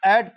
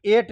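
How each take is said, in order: First: एट with open 'ae', like at; correct reading of at. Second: एट with closed 'ay', like eight; wrong reading of at. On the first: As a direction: say एट to rhyme with cat. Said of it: "तो एटी एट पढ़ेंगे". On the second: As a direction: say एट to rhyme with late. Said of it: "एटी एट नहीं पढ़ेंगे". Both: Shown as a demonstration.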